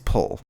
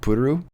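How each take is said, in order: First: The name is said as one syllable. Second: The name is said as two syllables. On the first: "the closest correct English pronunciation of her name is pull" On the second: "they say like Puru"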